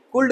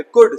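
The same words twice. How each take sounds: First: कुल्ड with L before the d; higher-pitched कुल्ड with the L heard; wrong, L sounded. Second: कुड said as "kud"; कुड, short vowel straight into d; silent L. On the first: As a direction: voice the L, "kuld". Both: Shown as a demonstration. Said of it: "एल silent है".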